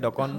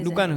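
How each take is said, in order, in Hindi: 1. पहला स्वर खुली 'aw' ध्वनि है। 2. पहला स्वर गोल 'o' ध्वनि है। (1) "ওৰ জেগাত অ হৈ যায়" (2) "উজনিত হৈ দোকান হৈ যায়"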